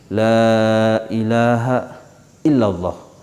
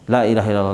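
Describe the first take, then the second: First: The phrase is said slowly and deliberately. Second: The phrase is said quickly and lightly. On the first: It is said once but taken into the heart. The speaker calls it right. "Walaupun sekali tetapi kita masukkan dalam hati" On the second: It is counted many times without reaching the heart. The speaker calls it wrong. "dengan cepat"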